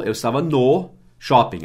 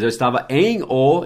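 First: "no" contraído e destacado antes de "shopping"; ênfase no NO. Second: "em o" em duas palavras, "em" alongado e mais alto; EM O separado. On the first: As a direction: corrija marcando a palavra "no". (destaque didático no "no") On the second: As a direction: separe e destaque "em" e "o". ("em o" didático, sem contração) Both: Shown as a demonstration.

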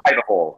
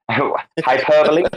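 First: "hyperbole" as "hyper-bowl"; mispronunciation. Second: "hyperbole" in four syllables, hy-PER-buh-lee; correct pronunciation. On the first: Querying a friend's word, "hyperbole" said as "hyper-ball". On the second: Querying a friend's word, "hyperbole" said hy-PER-buh-lee. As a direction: say "hyperbole" with a final "ee" sound. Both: Shown as a demonstration.

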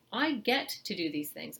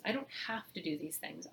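First: I get to lifted and pushed, I first; stress on I get to. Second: "don't" hit with a rise, rest softer; stress on don't. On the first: Parent reframing chores aloud, stressing "I get to". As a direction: lean on "I get to" as a gift. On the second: Parent rejecting the chore idea aloud, stressing "don't". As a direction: tip up on "don't have to", let it drop. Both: Shown as a demonstration. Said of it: "catch yourself and say".

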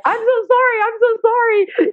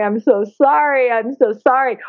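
First: Very high, squeaky imitation of a friend; mock wail in a far higher voice; imitating girlfriend. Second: Mild mock crying, slightly raised pitch; retold tearful apology. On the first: Girlfriend beside her at the pool, high mock-wailed apology. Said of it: "my girlfriend who's beside". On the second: Woman crying to a captive dolphin, retold tearful apology. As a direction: lightly act out a weepy apology. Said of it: "I'm crying and going".

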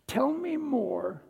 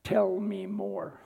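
First: Higher, slow and inviting. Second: Slow and deliberate. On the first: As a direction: Tell me more lifted higher and drawn out slowly. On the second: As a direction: Tell me more, slow and even, each word spaced. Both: Shown as a demonstration. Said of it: "The three most important words when listening are".

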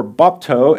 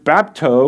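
First: "bapto" with an open ah, BOP-toe; alternative pronunciation. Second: "bapto" with a flat a, BAP-toe; first pronunciation. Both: Shown as a demonstration. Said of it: "as it's pronounced by some".

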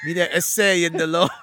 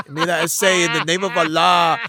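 First: Shouted, hammed-up Mexican accent. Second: A hammed-up Mexican accent, a bit louder; deliberately wrong Mexican accent for a Muslim role. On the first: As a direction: yell the line in a mock Mexican accent. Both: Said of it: "so I did it with a Mexican accent".

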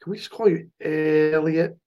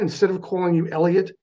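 First: "Elliot" with a stretched first vowel; drawled name Elliot. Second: Said in the usual way. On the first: Retold or imitated. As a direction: imitate friends drawing out the start of "Elliot". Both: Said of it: "'Cause it sounds better".

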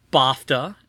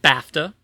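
First: "bafta" deliberately mispronounced. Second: "bafta" said carefully as the correct version; "bafta" pronounced as a correction. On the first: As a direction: say "bafta" the mistaken way, set apart after a pause. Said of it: "explained how I mispronounced". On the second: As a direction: give the proper pronunciation of "bafta", set apart. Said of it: "it's actually pronounced bafta". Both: Shown as a demonstration.

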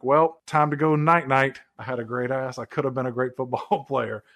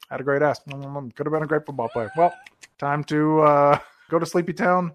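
First: A half-hearted stab at the singer's voice; terrible impression. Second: Lightly voiced mumbling actor; a hint of a mumbly movie-star impression; corrected impression. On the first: Acted. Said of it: "a terrible Elvis impersonation". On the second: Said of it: "It should sound, like, more like this".

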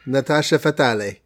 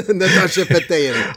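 First: "Fatale" said as fah-TAH-lee; Italianized "Fatale" with a sounded final e; Italian-style pronunciation. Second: "Fatale" said as fah-TAYL, through a laugh; higher, amused take on "Fatale"; femme fatale pronunciation. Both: Shown as a demonstration. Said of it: "That's more Italian".

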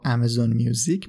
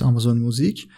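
First: میوزیک said the English way, mew-zik; آمازون میوزیک with the English vowel in میوزیک; English pronunciation. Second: Said in the usual way. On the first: Shown as a demonstration. Podcaster gives the brand's own English pronunciation, میوزیک as mew-zik. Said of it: "به تلفظ، اه، خودشون". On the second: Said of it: "یا آمازون میوزیک به تلفظ، اه، خودشون".

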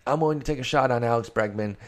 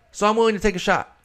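First: Said in the usual way. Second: Pitched way up and louder, rushed and eager; emphatic declaration. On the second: Real, not acted. To his listeners, pumped up about buying Bregman, loud and fast. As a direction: sell the bold pick with a burst of excitement. Repeats the claim with more force.

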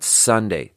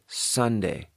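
First: "Sunday" with the S pushed too far out; wrong, sharper S. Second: "Sunday" with a softened, controlled S, quieter; soft S. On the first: Showing what not to do, sharp S. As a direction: let the S in "Sunday" hiss sharply. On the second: Showing the wanted take, soft S. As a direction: ease off the S in "Sunday", softly. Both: Shown as a demonstration. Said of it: "Not Sunday".

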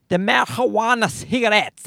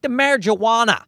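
First: "marijuana" said with a breathy Spanish h for the j, "ma-hwa-na"; mock Spanish pronunciation. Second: Said in the usual way. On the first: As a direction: ham up "marijuana cigarettes" Spanish-style, with "ma-hwa-na" and a higher pitch.

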